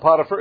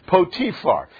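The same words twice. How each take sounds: First: The name is said in the familiar, easier way. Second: The name is said in the less familiar way. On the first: This is the everyday way people say it. The speaker calls it wrong. "We call it Potiphar. It's easier to pronounce that way" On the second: This is how the name is really pronounced. The speaker calls it right. "his name is really pronounced Potiphar"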